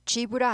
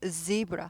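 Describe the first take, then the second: First: The word begins with a j sound. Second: The word begins with a buzzing z sound. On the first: The speaker calls it wrong. "g브라 아니고" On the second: The speaker calls it right. "z 발음이에요"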